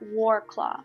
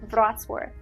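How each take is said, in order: First: The name is said in an anglicized way. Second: The name is said in the Polish way. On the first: This is how visitors usually say it. The speaker calls it wrong. "They call it" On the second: This is the name's real pronunciation. The speaker calls it right. "the correct name is"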